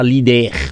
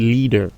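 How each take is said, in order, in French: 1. Il se prononce avec des voyelles françaises. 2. Il se prononce avec des voyelles anglaises. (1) "On ne dit pas leader, non, comme en français" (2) "On dit leader"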